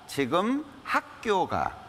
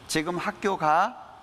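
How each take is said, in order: First: It is said with a Gyeongsang regional accent. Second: It is said with a standard Korean accent. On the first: It asks whether the listener is at school now. "경상도식으로 해석을 하면 ... 악센트가 중요합니다" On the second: It asks whether the listener is going to school now. "표준적인 방법으로 어, 해석을 하면"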